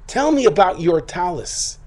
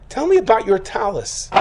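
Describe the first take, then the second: First: Slower, drawn-out, insistent demand; slow mock-stern repeat. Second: Higher, pressing the question hard; a barely contained mother-in-law demanding an answer; mock-furious demand. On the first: Mother-in-law pressing her son again, slowly and sternly. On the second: Mother-in-law grilling her son about his dirty talus, higher and demanding.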